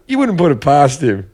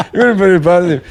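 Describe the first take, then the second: First: Said in the usual way. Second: Says it through a laugh; chuckling as he repeats the jab. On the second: Real, not acted. Host repeating the jab about Devlin, laughing.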